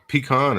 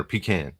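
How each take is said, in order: First: "pecan" said pee-KAHN, stress on KAHN; pee-KAHN pronunciation. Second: "pecan" said pee-CAN, with a short A; pee-CAN pronunciation. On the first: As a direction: rhyme the end of "pecan" with "on". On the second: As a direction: rhyme the end of "pecan" with "man". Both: Shown as a demonstration. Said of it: "do you say pecan or pecan".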